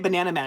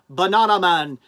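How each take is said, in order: First: Banana is said with an American pronunciation. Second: Banana is said with a British pronunciation. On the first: The speaker calls it wrong. "I shouldn't say Banana Man" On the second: The speaker calls it right. "I should say Banana Man because they, you know, they they in the U K"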